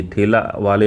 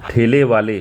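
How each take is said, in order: First: ठेला said ending in a, thelaa; ठेला as the wrong form, final aa. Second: ठेले said ending in e, thele; ठेले as the correct form, final e. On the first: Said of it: "ठेला वाले नहीं". (ठेला, अंत में "आ") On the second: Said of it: "ठेले वाला". (ठेले, अंत में "ए") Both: Shown as a demonstration.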